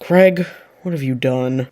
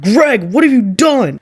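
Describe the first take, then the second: First: It is said quietly, in a hushed voice. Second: It is said loudly, as a scream. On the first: "at first, in a hushed voice" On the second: "she fell to her knees and screamed"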